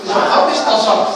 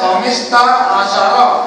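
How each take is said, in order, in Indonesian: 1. Suku-suku kata menyatu menjadi bentuk yang dipersingkat. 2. Setiap suku kata diucapkan terpisah dan lengkap. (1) "Cuma sebutannya khamis tasar"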